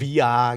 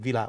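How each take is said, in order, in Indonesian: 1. Double L dibaca seperti Y. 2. Double L dibaca seperti L.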